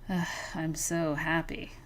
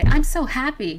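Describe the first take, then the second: First: It sounds unhappy and reluctant, with a groan. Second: It sounds genuinely happy and cheerful.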